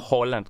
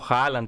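First: The first vowel sounds like 'o'. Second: The first vowel sounds like 'a'. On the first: The speaker calls it right. "που πρέπει να είναι και σωστό Χόλαντ" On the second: The speaker calls it wrong. "Το Χάλαντ"

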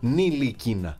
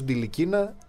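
First: The name begins with an N sound. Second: The name begins with a D sound. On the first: "δεν προφέρεται το ταφ. Άρα ο παίκτης λέγεται Νιλικίνα" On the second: "το έχουμε ακούσει ως Ντιλικίνα"

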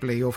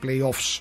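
First: The word ends without a final s sound. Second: The word ends with a final s sound. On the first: The speaker calls it wrong. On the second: The speaker calls it right.

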